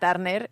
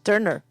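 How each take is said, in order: First: The name is said with Spanish sounds. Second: The name is said with English sounds. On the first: This is how people in Spain say it. "se pronuncia aquí Tina Turner" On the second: This is the original way to say it.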